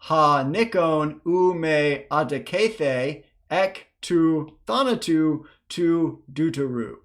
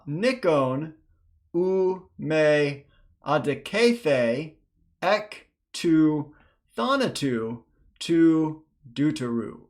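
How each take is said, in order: First: It is read at a faster pace. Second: It is read at a slower pace.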